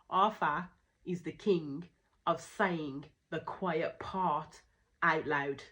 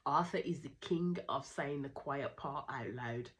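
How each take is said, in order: First: The sentence is spoken slowly and deliberately. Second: The sentence is spoken at a normal pace.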